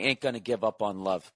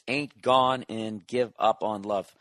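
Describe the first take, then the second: First: The middle is reduced to 'gonna'. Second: The middle is said as 'gone and'. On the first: This is the speaker's own habitual way of saying it. "I just say" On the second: This is how the song title is actually sung. "but it's"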